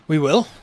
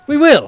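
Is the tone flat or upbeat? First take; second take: flat; upbeat. First: It is said in a flat, subdued tone. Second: It is said in a bright, upbeat tone.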